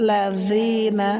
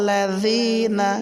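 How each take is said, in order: Both takes have the same delivery.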